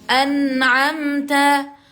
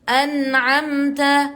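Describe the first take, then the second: The two takes are said the same way.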